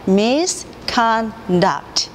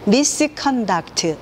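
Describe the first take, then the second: First: Misconduct split into slow separate syllables, mis-con-duct; staccato. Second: Misconduct said smoothly as one linked word, not split; smooth English. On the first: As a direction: misconduct chopped one syllable at a time, very slow. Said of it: "한 글자씩 끊어서 읽게 되면". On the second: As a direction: misconduct blended without Korean syllable breaks. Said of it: "이렇게 한 글자씩 끊어서 읽지 않는 소리로". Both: Shown as a demonstration.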